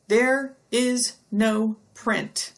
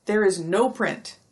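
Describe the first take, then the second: First: Slow, stressed there is no print; emphatic. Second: Said in the usual way. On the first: Shown as a demonstration. Teacher hammering home the point, slow and emphatic. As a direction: lean hard on "there is no print" slowly.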